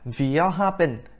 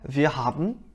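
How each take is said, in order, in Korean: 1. 마지막 -en은 완전히 발음되어서 n으로 끝나요. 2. 마지막 -en은 삼켜져서 뚜렷한 n이 없어요. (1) "한국에서 공부를 할 때는 아 wir haben 이렇게 얘기를 했어요" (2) "n 이렇게 안 끝나고 은 약간 이런 느낌으로"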